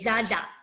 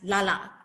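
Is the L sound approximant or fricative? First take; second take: fricative; approximant. First: The l is a hissing lateral fricative. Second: The l is a smooth approximant. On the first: The speaker calls it right. "say Lala and say the lateral frequency" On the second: The speaker calls it wrong. "if I mispronounce it as Lala, um, approximate"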